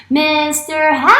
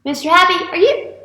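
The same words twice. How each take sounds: First: Wake-up call. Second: Higher-pitched short call; tentative calling. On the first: Teacher wakes the sleeping puppet, calling out. Let's wake Mister Happy up. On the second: Teacher calls at the puppet's door, lightly. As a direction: call lightly to see if anyone answers. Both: Pretend.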